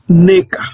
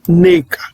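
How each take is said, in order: First: The first vowel is an 'e' sound. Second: The first vowel is an 'e' sound.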